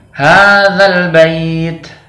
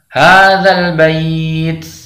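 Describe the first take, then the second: First: The final 't' ends with only a breath. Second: The final 't' ends with an 's'-like hiss. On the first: "seperti hanya hembusan nafas saja" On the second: "seperti ada huruf sin di belakangnya"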